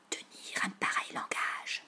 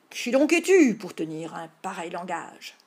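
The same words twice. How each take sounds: First: Voiceless stage whisper; hushed prompter's whisper; whispered prompt. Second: Declaimed, much louder mock-heroic challenge; theatrical knightly demand. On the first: A narrator's reading. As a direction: whisper the forgotten line to your playmate. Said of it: "souffla Tom en achevant la réplique". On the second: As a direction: boom out the memorised line. Line repeated aloud after prompt.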